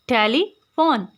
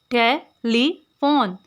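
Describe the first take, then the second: First: telephone with a pause between tele and फोन; split in two parts. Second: telephone in three separate syllables with long pauses. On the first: Teacher dividing a word for clipping, telephone said in two separated parts. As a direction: break telephone into its two halves. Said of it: "हमने tele यानी tele इन दोनों को remove". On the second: Teacher showing three syllables, telephone said slowly in separated pieces. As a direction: spell out telephone slowly, one beat at a time. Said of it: "ये हमारे पास three syllables थे". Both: Shown as a demonstration.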